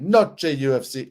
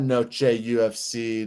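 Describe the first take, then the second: First: It is said in an Italian-sounding accent. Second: It is said in the speaker's plain accent.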